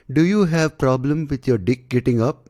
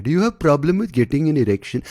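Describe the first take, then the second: First: Blunt ad pitch. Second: Higher, polished ad-host voice; polite ad pitch. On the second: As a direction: pitch it like a slick ad. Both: Retold or imitated. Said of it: "they don't say it obviously like that".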